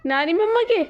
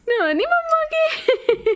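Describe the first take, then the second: First: Said in the usual way. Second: Put-on much higher, slow laughing baby talk. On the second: Shown as a demonstration. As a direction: squeak it like a baby, slowly. (ऊंची पतली आवाज़ में तुतलाते हुए) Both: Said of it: "ऐसे गई थी".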